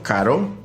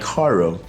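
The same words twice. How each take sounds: First: The r is a quick Spanish tap. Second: The r is a curled English-style r. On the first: The speaker calls it right. "instead of caro" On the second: The speaker calls it wrong. "it comes like caro"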